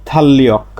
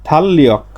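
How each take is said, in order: No difference in how they are said.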